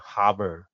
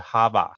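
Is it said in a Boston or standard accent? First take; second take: standard; Boston. First: It is said in a standard American accent. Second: It is said in a local Boston accent.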